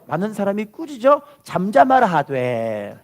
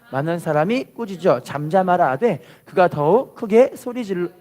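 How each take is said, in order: First: Slow, measured repeat of the verse; slow read-along. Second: Measured reading; scripture reading. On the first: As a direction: lead the people in reading slowly. (천천히 따라 읽게 하듯이) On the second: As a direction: read the verse aloud for the people. (말씀을 또박또박 읽듯이) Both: Shown as a demonstration. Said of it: "따라할게요".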